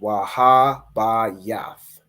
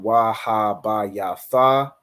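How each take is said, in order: First: The final letters are joined into one syllable. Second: The final letters are said as separate syllables. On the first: The speaker calls it right. "the ya and the tha join together to make yath" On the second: The speaker calls it wrong. "instead of it being wa ha ba ya tha"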